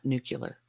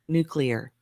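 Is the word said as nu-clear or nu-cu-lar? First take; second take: nu-cu-lar; nu-clear. First: It is said as nu-cu-lar. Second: It is said as nu-clear. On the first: The speaker calls it wrong. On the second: The speaker calls it right. "So remember"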